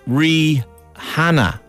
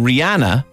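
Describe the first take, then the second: First: The h sound is strong and clearly heard. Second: The h sound is weak or barely heard. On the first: The speaker calls it right. "she pronounces it Rihanna. So yeah. Puts the H in" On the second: The speaker calls it wrong. "we're all mispronouncing [name]"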